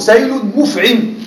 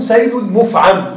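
First: سيل مفعم with مفعم said mufʕim, kasra on the ʕayn; مفعم as active participle mufʕim, short i before final m; active form mufʕim. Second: سيل مفعم with مفعم said mufʕam, fatha on the ʕayn; مفعم as passive participle mufʕam, open a before final m; passive form mufʕam. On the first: Teacher to students, giving the original active reading. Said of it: "والأصل". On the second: Teacher to students, modelling the passive participle reading. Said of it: "بالبناء للمجهول". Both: Shown as a demonstration.

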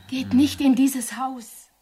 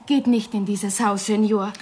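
First: Slow, insistent warning; drawn-out, urgent warning. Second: Restrained, earnest warning. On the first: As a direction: drag out the plea to keep away. Repeated, slower, more insistent warning. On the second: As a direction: warn the visitor off, without raising the voice. Villager warns visitor off the house. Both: Acted.

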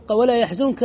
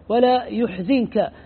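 First: Said in the usual way. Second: يحزنك said slowly as yuhzinka, ya with damma, zay with kasra; Nafi's reading. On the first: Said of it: "قرأ نافع". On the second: Shown as a demonstration. Teacher shows Nafi's reading to students, slow and careful. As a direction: stretch out يحزنك as yuhzinka, deliberate and clear. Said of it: "بضم الياء وكسر الزاي".

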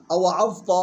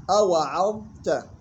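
First: أوعظت misread with thick final "ta"; wrong heavy ta. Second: Slow أوعظت with thin ayn and light "ta"; correct light ta. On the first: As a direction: quickly show أوعظت with emphatic ending like "awa'azta". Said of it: "غلط". (أوعظت بتفخيم التاء خطأً) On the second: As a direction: hold the dha in أوعظت, then a light ta. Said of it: "يلاحظ ترقيق العين والتاء". (أوعظت بترقيق العين والتاء) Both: Shown as a demonstration.

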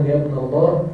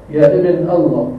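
First: يا ابن الله with the h of الله clearly sounded; الله ending in a clear h; with the final h. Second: يا ابن الله with الله cut to alla, no h at the end; الله without its final h; dropping the final h. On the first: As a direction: finish الله with an audible h. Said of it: "بدون هاء". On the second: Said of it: "بدون هاء من لفظ الجلالة". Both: Shown as a demonstration.

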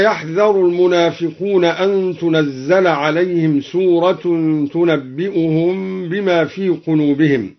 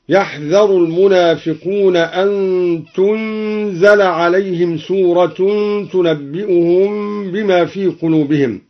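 First: Said in the usual way. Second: "تنزل" as tunzala, vowelless n and single z; silent-vowel nun, light zay. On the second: Shown as a demonstration. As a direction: recite "تنزل" without doubling the z. ("تنزل" بإسكان النون وتخفيف الزاي) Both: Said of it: "بإسكان النون وتخفيف الزاي".

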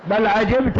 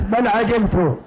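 First: عجبت said 'ajibta, ending in -a; fatha on the ta. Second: عجبت said 'ajibtu, ending in -u; damma on the ta. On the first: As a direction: end عجبت on an open "ta". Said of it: "على قراءة فتح التاء". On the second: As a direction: end عجبت on a rounded "tu". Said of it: "على قراءة ضم التاء". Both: Shown as a demonstration.

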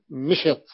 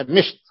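First: مشط as mishit, two syllables; variant form. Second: مشط as misht, one syllable; base form. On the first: Teacher shows students the variant, mishit. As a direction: say مشط with i after the sh too. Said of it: "ولدينا مشط". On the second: Teacher cites the base word for students, misht. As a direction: say مشط with a silent middle letter. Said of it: "لغة في". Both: Shown as a demonstration.

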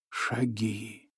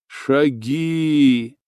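First: Almost inaudible, much softer; hushed footsteps. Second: Firm repeat. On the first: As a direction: breathe the word out barely heard. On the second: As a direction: land the second „шаги” with weight. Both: A narrator's reading. Echoing repeated footsteps word.

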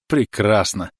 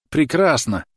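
First: Pleased cry of delight; exclaiming. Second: Прекрасно shouted higher and louder; higher exclaiming. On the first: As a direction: call it out happily. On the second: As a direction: lift Прекрасно up in joy. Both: A narrator's reading. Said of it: "восклицал он".

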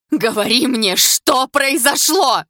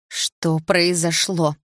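First: High, loud, drawn-out demand; full-lunged scream. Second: Slow, stretched-out insistent question; a little louder. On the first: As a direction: scream the question with all your might. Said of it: "закричала во всю мощь лёгких". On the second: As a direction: press the question slowly, word by word. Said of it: "повторила я громче". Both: A narrator's reading.

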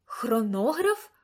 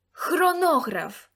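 First: Slow, questioning Хронограф rising at the end; puzzled echo. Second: Loud, slow, high cry of Хронограф with a falling end; exclaimed. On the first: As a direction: echo Хронограф back, unsure. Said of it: "відлунила я". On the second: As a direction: call out Хронограф as the obvious answer. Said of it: "вигукнув Лукас". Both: A narrator's reading.

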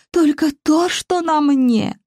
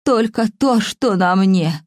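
First: Put-on higher, slow, sobbing old woman; sobbing wail. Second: Put-on very old faint voice. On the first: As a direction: wail it out through tears. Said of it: "Старуха рыдала басом".

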